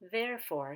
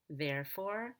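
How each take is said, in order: First: The pitch rises, then falls at the end. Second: The pitch falls, then rises at the end. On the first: The speaker calls it wrong. "regular intonation that goes up on the main stress and then down" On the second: The speaker calls it right. "we're going to go down on the main syllable, which is there, and then we'll go up on for"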